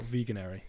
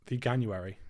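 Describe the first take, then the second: First: No 'you' sound follows 'vegan' in the word. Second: A 'you' sound follows 'vegan' in the word. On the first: The speaker calls it wrong. "not veganary" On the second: The speaker calls it right. "veganuary, not veganary"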